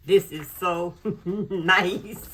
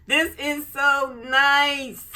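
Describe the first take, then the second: First: Slow, loud with a laugh in it; real giggly delight. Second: Higher, louder, slow gush; real rising delight; excited gush. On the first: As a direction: laugh through the words, delighted. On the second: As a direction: stretch it out, thrilled. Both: Real, not acted. Gushing over the planner.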